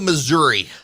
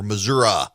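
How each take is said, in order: First: It is the pronunciation used outside Missouri. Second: It is the pronunciation used by Missouri locals.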